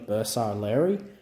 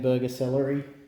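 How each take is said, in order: First: It is said as one word beginning 'bursa'. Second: It is said like the English words 'burger celery'. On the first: The speaker calls it right. "which is closer to the" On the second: The speaker calls it wrong. "a common mispronunciation"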